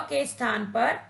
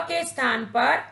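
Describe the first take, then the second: No difference in how they are said.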